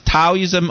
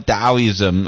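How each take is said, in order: First: The word begins with a T sound. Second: The word begins with a D sound. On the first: This follows the English spelling. "if you spell as T A O" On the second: This follows the original Chinese pronunciation. "in original Chinese pronunciation, that's D A O"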